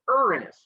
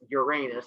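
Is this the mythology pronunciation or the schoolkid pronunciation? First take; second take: mythology; schoolkid. First: It is said the way mythology uses it. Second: It is said the way schoolchildren say it. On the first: It names the sky god. "the mythology way" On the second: It sounds like a joke word. "you guys are going to pronounce it as Uranus and then giggle"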